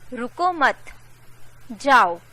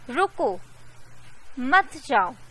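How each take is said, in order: First: There is a pause after 'मत'. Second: There is a pause after 'रुको'.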